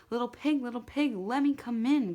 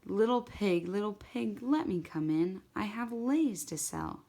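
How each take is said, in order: First: Higher, louder shark calling, getting upset; growing upset. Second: Sweetly calling. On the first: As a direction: call sweetly at first but let the impatience break through. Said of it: "called the magic shark, growing upset". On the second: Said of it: "called sweetie, sweetly". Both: A narrator's reading.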